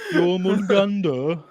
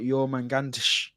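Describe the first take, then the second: First: The name ends with a plain 'der' sound. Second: The name ends with a 'tsh' sound. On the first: "That's how I'd say it" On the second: "the actual real pronunciation has got like a tsh on the end"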